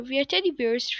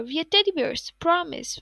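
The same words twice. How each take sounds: First: Said in the usual way. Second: A slightly squeaky, pleading "we are teddy bears"; mild squeak, promising earnestly. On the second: A narrator's reading. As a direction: squeak it out a touch higher, insisting. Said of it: "squeaked brown bear".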